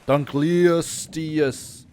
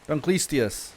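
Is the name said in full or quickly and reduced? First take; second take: full; reduced. First: Every syllable is said in full and clearly. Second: It is said fast with the middle syllables merged. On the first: "technically like Dunkleosteus" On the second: "when I say it quickly, it just comes out as Dunkleistius"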